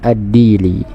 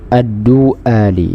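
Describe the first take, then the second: First: The first vowel is i, with no glottal stop. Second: The first vowel is u, followed by a glottal stop. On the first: "dengan dikasrah huruf dalnya ... disukunkan huruf ya-nya" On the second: "huruf dalnya didommahkan dan hamzahnya itu difathahkan"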